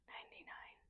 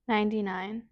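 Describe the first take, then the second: First: It is whispered without voice. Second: It is spoken in a normal voice.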